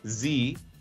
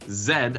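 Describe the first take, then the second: First: The letter name is said the non-Canadian way. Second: The letter name is said the Canadian way.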